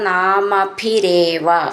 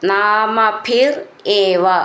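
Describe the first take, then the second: First: The two words are joined into one. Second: The two words are said separately.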